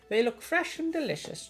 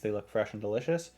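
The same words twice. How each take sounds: First: It is read in a put-on character voice. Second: It is read in the speaker's own normal voice.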